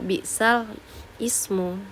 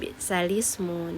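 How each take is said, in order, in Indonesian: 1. Kedua kata itu dipisah dengan jeda. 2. Kedua kata itu disambung tanpa jeda. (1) "tidak boleh dipisah antara bi'sal ismu seperti itu" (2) "kita harus melanjutkannya menjadi bi'salismu"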